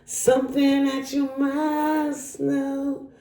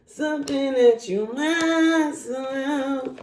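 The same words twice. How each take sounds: First: Slow sung line, high; singing. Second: Slow sung repeat, high; singing. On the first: Sings a line to viewer. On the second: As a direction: sing it again slowly. Sings the line again. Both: Pretend.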